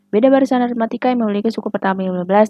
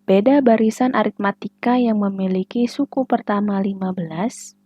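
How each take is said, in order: First: The sentence is read quickly in a rushed way. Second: The sentence is read at a careful, slow pace. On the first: The speaker calls it wrong. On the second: The speaker calls it right.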